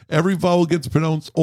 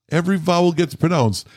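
No difference in how they are said.

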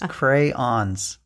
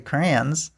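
First: The word is said fully with two syllables. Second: The middle is dropped, leaving one syllable. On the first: The speaker calls it right. "You left the whole middle of the word out. It's crayons" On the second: The speaker calls it wrong. "You don't say crayons"

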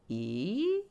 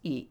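First: The sound glides smoothly without any breaks. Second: The sound is chopped into separate broken bits. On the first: The speaker calls it right. "We don't want that" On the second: The speaker calls it wrong. "Disconnection is ee"

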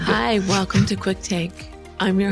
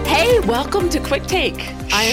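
First: It is said quietly. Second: It is said loudly.

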